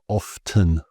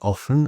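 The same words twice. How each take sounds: First: The T sound is clearly pronounced. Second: The T sound is left out. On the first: The speaker calls it wrong. "and not often" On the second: The speaker calls it right. "we would say often"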